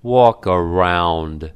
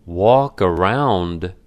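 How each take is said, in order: First: Slow, mildly menacing order; a touch of threat, drawn out slowly. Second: Slow, mildly indignant echo; incredulous echo. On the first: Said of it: "Menacingly, he said". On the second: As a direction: throw the words back slowly in disbelief. Cameron throws the order back. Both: A narrator's reading.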